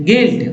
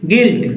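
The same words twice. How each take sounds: No difference in how they are said.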